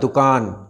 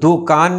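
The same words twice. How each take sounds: First: The first vowel is a short 'u'. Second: The first vowel is a long 'oo'. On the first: The speaker calls it right. "दाल पे पेश है" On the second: The speaker calls it wrong. "दुकान नहीं होता"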